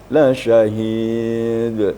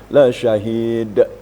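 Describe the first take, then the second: First: The final d ends with a clean stop. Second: The final d ends with an extra added vowel. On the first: The speaker calls it right. "qalqalah kubra, besar" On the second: The speaker calls it wrong. "Ada orang sebagian"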